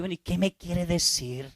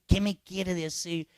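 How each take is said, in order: First: Impatient priest. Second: Slow, deliberate ¿Qué me quiere decir? with weight on me; slow pointed question. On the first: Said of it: "Y uno dice". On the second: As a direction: draw out the question to press the penitent. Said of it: "Y dile". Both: Retold or imitated.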